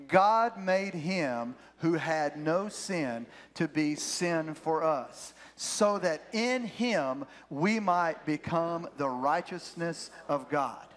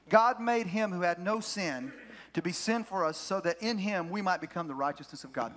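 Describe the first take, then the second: First: Slow, measured scripture reading, pitched lower; read-along verse. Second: Said in the usual way. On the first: Real, not acted. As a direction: lead the congregation word by word, slowly. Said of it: "I want you to read this with me".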